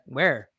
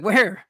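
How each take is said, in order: First: Said in the usual way. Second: Louder, higher disbelieving question; incredulous. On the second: Retold or imitated. Friend learns the visitor is already here, incredulous. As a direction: blurt it out in disbelief. Asks again, alarmed at surprise visit.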